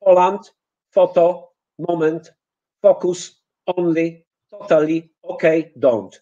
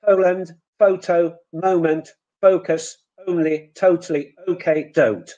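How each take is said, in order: First: Poland, photo, moment with a pure Polish O; Polish O vowels. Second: Poland, photo, moment with a gliding English OU; English OU diphthong. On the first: Teacher modelling the Polish O in English words. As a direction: say each word with a flat Polish O, no glide. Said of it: "look what we get as a result". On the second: Teacher modelling correct English vowels. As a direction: glide each O from o toward u. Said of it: "Now, instead of". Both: Shown as a demonstration.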